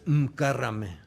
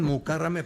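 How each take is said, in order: First: No vowel is heard after the first M. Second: A full vowel is heard after the first M. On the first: This is the real form of the name. The speaker calls it right. "pero es Mkárrame" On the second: This is what people used to call her. The speaker calls it wrong. "le decían Mukárrame"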